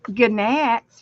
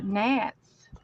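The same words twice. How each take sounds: First: The G at the start is sounded aloud. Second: The G at the start is silent. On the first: "We used to say gnats" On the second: "for gnats"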